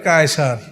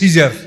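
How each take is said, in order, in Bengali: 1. শব্দটি K ধ্বনি দিয়ে শুরু হয়। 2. শব্দটি S ধ্বনি দিয়ে শুরু হয়। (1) "আরবিতে কায়সার বলা হয়" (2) "ওরা উচ্চারণ করে সিজার"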